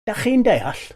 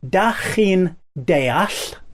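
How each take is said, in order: First: The phrase is said at normal speed. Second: The phrase is said slowly.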